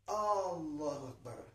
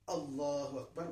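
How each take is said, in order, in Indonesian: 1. Vokal pembuka pada Allahu dipanjangkan. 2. Vokal pembuka pada Allahu itu pendek. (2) "tolonglah dipendekkan alifnya"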